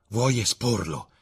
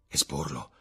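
First: Slow, raised, alarmed question; exclaimed disbelief. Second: Taken aback. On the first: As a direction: ask it drawn out, aghast. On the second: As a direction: repeat the word in hushed disbelief. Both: A narrator's reading. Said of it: "esclamò Dorian Gray".

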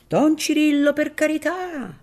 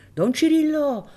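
First: High, loud desperate call; pleading call. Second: High, loud call up to the window. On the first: Filippino begs Don Cirillo from the street, loud and high. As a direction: beg him loudly from below. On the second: Filippino calls up to Don Cirillo, high and loud. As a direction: call his name from the street. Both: Acted.

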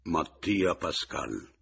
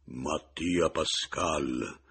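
First: Slow, hollow announcement of a name; hollow, syllable by syllable. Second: Very slow, booming sepulchral voice; hollow the voice out and stretch every syllable; cavernous voice. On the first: Man answering the widow through the door, hollow and syllabic. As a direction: draw out each syllable in a dark, firm voice. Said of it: "con voce cupa, quasi sillabando". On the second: Man repeating his name to scare the widow, cavernous. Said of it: "incavernando ancor più la voce". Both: A narrator's reading.

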